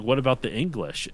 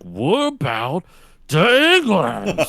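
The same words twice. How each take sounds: First: Said in the usual way. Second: "What about the English" slurred, drawn out very slowly, rising high and loud; less intelligible. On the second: Retold or imitated. Dad losing it over his son's grades, unintelligible. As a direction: garble "the English" into a long loud warble. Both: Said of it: "he becomes less intelligible".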